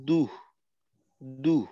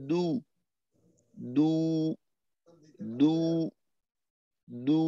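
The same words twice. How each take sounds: First: দু ending in an h-like puff; breathy দু error. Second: দু with no breath after the vowel; controlled দু. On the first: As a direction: let a little h follow the দু. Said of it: "শেষে একটু হর মতো ধ্বনি চলে আসলো". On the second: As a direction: close দু cleanly. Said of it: "এটাকে আরেকটু নিয়ন্ত্রণ করা". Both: Shown as a demonstration.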